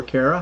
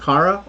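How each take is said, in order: First: Kara said KAIR-uh; Kara with AIR. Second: Kara said KAH-ruh, open AH. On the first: Host offering another way to greet a viewer, Kara said KAIR-uh. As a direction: say Kara with the first syllable like care. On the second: Host trying a viewer's name, Kara said KAH-ruh. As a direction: say Kara with the first vowel as in car. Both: Shown as a demonstration. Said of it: "not sure which way to say your name".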